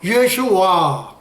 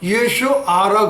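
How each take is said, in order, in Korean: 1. 이름은 'wa' 소리로 끝나요. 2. 이름은 평범한 'a' 모음으로 끝나요. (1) "발음도 예수와" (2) "예수 알아 그러지 않고"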